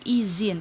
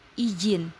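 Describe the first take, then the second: First: The middle consonant is a z sound. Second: The middle consonant is a j sound. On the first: This is the standard form. The speaker calls it right. "kata bakunya izin. Pakai apa? Pakai Z" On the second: This is the nonstandard form. The speaker calls it wrong. "kadang-kadang suka ada yang pakai J"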